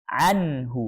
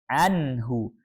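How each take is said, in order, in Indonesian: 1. Bunyi n jelas dan dilepas cepat. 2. Bunyi n jelas dan dilepas cepat.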